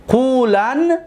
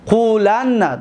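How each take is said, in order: First: قولن as qulan, ending on a single n; light emphatic nun. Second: قولن as qulanna, doubled n then short a; heavy emphatic nun. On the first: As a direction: end قولن on n with no final vowel, pitch rising. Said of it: "نون خفیفه". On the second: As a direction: hold the n in قولن and release it into -na. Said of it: "نون توکید ثق-، ثقیله". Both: Shown as a demonstration.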